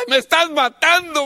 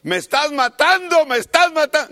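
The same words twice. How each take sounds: First: Higher, louder mock yell of a kid; child yelling. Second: Imitating a child's high yell, louder, under the belt. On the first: Grandson hit with the belt cries out to his father, hammed-up yell. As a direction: howl like a spanked child. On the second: Child yelling at his father during a spanking, mock pained yell. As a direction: cry out like a kid getting spanked. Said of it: "Y el niño gritaba".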